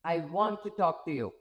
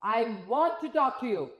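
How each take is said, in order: First: Plain-ish firm request; first take. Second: Second take, different tone. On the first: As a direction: say it flat, a bit low. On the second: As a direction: say it with a friendlier lift. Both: Shown as a demonstration. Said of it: "It's the same sentence".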